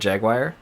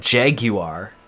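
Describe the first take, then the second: First: The word is said in an American pronunciation. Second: The word is said in a British pronunciation. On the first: This is how the speaker's own country says it. "we call it Jaguar" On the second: This is how people over there say it. "They call it Jaguar"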